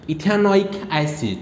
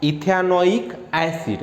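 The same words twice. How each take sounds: First: Slow, drawn-out ethanoic acid; slow spelled-out name. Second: Very slow ethanoic acid, each syllable stretched; slower repeat. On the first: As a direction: say ethanoic acid slowly, syllable by syllable. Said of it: "pen उठाओ और इसको ख़त्म करो". (धीरे-धीरे ethanoic acid) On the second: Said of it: "क्या हुआ". (और धीरे ethanoic acid) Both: Shown as a demonstration.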